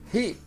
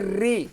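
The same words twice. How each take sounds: First: The first sound is rasped in the throat. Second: The first sound is a plain, non-guttural r. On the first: The speaker calls it right. "é ri, como gutural" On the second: The speaker calls it wrong. "Não é ri"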